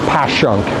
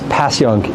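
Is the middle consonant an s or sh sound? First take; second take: sh; s. First: The middle consonant is an sh sound. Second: The middle consonant is a plain s sound. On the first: "with like an S H" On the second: "Saying it as Passyunk is like acceptable"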